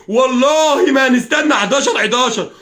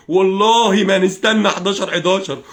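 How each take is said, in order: First: والله drawn out high and loud; heated, insistent vow building from والله; escalating oath. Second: والله stretched out slowly, firm but not shouted; measured, insistent vow on والله; emphatic oath. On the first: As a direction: swear it slowly in a raised, ringing voice. Same oath again, escalated. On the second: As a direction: swear it slowly, leaning on والله. Repeats the oath, escalating. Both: Real, not acted.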